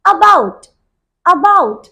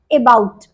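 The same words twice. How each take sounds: First: About with a quick light uh, uh-bout; about said uh-bout, first vowel light and quick; correct about. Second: Ebaut, with the about opening on a clear e; about mispronounced e-bout; wrong about. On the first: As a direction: clip the first sound of about to a short uh. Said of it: "The correct pronunciation is". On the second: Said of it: "that is totally wrong". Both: Shown as a demonstration.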